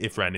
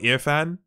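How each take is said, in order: First: The r sound comes after the f. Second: The r sound comes before the f. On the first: The speaker calls it wrong. "it isn't Ifran" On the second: The speaker calls it right. "it's Irfan"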